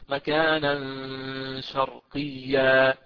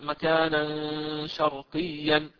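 First: The last word ends with a long -a vowel. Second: The last word ends with a nasal -an sound. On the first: The speaker calls it right. "أبدلت تنوين الفتح ألفا عند الوقف عليه وأمده بقدر حركتين اثنتين" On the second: The speaker calls it wrong. "ما أقول مكانا شرقيا، لا"

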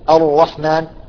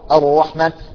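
The two takes are said the same way.

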